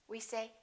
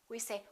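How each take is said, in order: Both takes have the same delivery.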